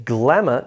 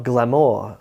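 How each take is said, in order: First: "glamour" stressed as GLAM-uh; front-stressed "glamour", weak ending; first-syllable stress. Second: "glamour" stressed on the end, gla-MOOR; slow, full second syllable in "glamour", gla-MOOR; wrong stress on "glamour". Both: Shown as a demonstration. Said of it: "screw up that syllable stress".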